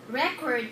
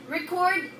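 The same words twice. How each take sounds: First: The stress is on the first syllable. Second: The stress is on the second syllable. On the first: It is used as a noun. "the stress in the first is on the first syllable" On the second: It is used as a verb. "Record is a verb"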